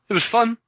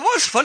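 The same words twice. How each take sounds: First: It is said in a flat, unenthusiastic tone. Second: It is said in an enthusiastic tone.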